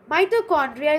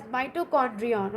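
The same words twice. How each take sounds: First: Said in the usual way. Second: "mitochondrion" ending in an -on sound; alternative pronunciation. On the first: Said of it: "is also pronounced as mitochondrion". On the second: Shown as a demonstration. Teacher showing students another pronunciation, "mitochondrion" ending in -on. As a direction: say "mitochondrion" with a final n, as -dri-on. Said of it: "Mitochondria is also pronounced as mitochondrion".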